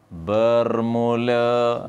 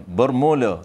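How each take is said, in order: First: "bermula" stretched very slowly; with intonation. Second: Said in the usual way. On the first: Shown as a demonstration. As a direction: draw out "bermula" with a long held last syllable. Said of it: "kena ada intonasi". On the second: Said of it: "tak, tak ada seni".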